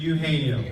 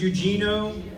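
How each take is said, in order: First: The name has its original non-English pronunciation. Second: The name has an American English pronunciation. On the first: This is how his parents named him. The speaker calls it right. "say it properly and name him the way his parents named him" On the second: This is how people in America say it. The speaker calls it wrong. "In America, he's known as"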